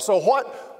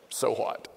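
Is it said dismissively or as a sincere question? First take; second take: sincere question; dismissively. First: It is a sincere, searching question. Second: It is a dismissive, teenage-style statement.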